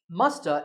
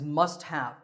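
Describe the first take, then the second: First: The two words blend into one reduced word. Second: The two words are said fully and separately.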